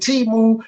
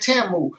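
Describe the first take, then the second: First: The first syllable sounds like 'tea'. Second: The first syllable sounds like 'ta'. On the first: This is how the speaker's own circle says it. The speaker calls it wrong. "Been saying it wrong. She been having me running around saying Timu" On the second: This is how others say it. The speaker calls it right. "they say Tamu. Now I'm just as confused as y'all why it would be a A"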